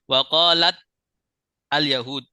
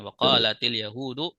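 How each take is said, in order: First: Qalat ends on a bare t, no linking vowel. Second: An 'i' vowel links qalat to the next word. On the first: The speaker calls it wrong. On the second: The speaker calls it right.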